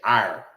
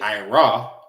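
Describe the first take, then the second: First: The word ends without any added vowel. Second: The word ends with an added 'ah' vowel. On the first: The speaker calls it right. "you say ire" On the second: The speaker calls it wrong. "You don't say ira"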